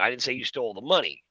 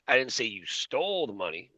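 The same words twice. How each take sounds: First: The word "money" carries the main stress. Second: The word "stole" carries the main stress. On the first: This person stole something other than the money. "I'm saying you stole something, but not the money" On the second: This person took it but did not steal it. "I'm saying you took it, but you didn't steal it"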